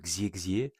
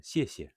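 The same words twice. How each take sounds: First: The x is read like a French 'ks'. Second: The x sounds closer to an 's'. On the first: The speaker calls it wrong. "on ne dit pas euh" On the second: The speaker calls it right. "on dit euh, / il va se prononcer plutôt euh, S"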